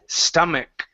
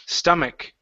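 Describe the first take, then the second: No difference in how they are said.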